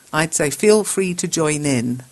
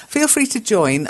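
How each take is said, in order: First: Slow corrected read. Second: Said in the usual way. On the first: Shown as a demonstration.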